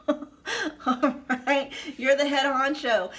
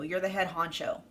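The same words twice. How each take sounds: First: Higher and louder through a laugh; giddy laughing repeat. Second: Said in the usual way. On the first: Real, not acted. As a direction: blurt it out laughing with delight.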